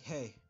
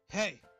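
First: It is said quietly. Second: It is said loudly.

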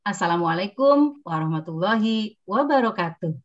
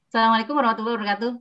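First: The greeting is spoken at an even, moderate speed. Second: The greeting is rushed and words blur together. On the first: The listener hears it clearly without waiting. The speaker calls it right. "Bukan pelan, sedang" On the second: The listener cannot catch the words clearly. The speaker calls it wrong. "Kalau cepat-cepat suka kelibet lidahnya"

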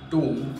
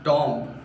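First: The vowel is a long 'oo' sound. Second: The vowel is a short 'o' as in top. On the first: The speaker calls it right. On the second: The speaker calls it wrong.

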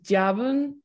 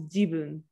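First: The first vowel sounds like 'a'. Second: The first vowel sounds like 'i'. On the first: The speaker calls it wrong. "You pronounce this as jabun" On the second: The speaker calls it right. "but it's pronounced as jibun"

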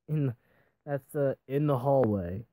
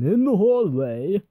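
First: It is said in a plain, normal voice. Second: It is said in a big announcer voice.

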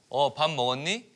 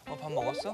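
First: It is said in a stagey, theatrical style. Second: It is said in a casual, natural style.

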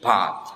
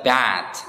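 First: It is said with a British accent. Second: It is said with an American accent. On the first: "Tapi kalau dalam British accent ini bad" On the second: "American English ini dibaca bad"

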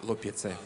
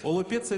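First: The first vowel sounds like a clear 'a'. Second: The first vowel sounds like a clear 'o'. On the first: The speaker calls it right. "А на самом деле – алопеция" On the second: The speaker calls it wrong. "Олопеция – это здесь так звучит"

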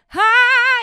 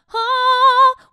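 First: The vowel sounds edgy with a raised larynx. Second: The vowel sounds tall and pure. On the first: "she lets the larynx come up a little bit" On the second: "which is a lot taller, a lot purer"

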